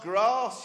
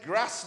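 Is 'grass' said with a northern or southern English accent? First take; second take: southern; northern. First: The word is said with a southern English accent. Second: The word is said with a northern English accent. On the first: The speaker comes from the south. "not grass" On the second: The speaker comes from the north. "He was a northerner. He would have said grass"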